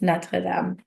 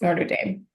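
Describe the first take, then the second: First: The name is said with French pronunciation. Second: The name is said with English pronunciation. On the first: This is how French speakers say it. "For uh, us francophones, it's Notre Dame" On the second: This is the accepted local way of saying it. "but yes"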